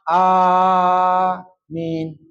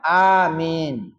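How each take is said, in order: First: The first vowel is held much longer. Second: Both vowels are held for the same length. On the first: The speaker calls it wrong. "Jangan yang panjang nian depan" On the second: The speaker calls it right. "panjang baik itu harus samo"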